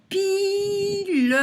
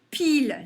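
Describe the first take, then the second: First: Slow two-beat pi-le; stretched vowel. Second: Said in the usual way. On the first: Shown as a demonstration. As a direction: pile chanted high and loud as piii-leuh. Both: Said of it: "on entend le I".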